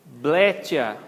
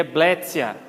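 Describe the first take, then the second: First: "Bletia" with a Portuguese CH sound, "BLE-tchia"; TI as CHI. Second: "bletia" said slowly as "BLET-sia". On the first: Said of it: "seria bletia". ("Bletia" à brasileira, com "tchi") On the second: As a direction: put a TS sound in "bletia". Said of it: "Equivale ao som de T S". ("bletia" com som de TS) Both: Shown as a demonstration.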